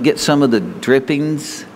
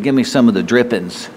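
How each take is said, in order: First: The wrong wording, drawn out slowly, Get some of the drippings. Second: The right wording, said plainly, Give me some of the drippings; the old folks' saying, said plainly. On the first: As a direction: set up the wording he will correct. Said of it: "They didn't say it that way". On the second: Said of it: "They said". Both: Shown as a demonstration.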